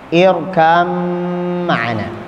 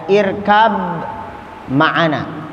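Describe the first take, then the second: First: The b sound is merged into the m. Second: The b sound is heard before the m. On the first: "Ba-nya tidak dibaca, tapi diidghamkan ke dalam mim" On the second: "irkab kan ba ya"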